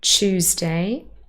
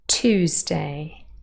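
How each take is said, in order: First: The word begins with a ch sound. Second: A plain t with no y sound. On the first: This is a British form with the sounds merged. "Tuesday with a ch already" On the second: This is the American form. "The y has disappeared"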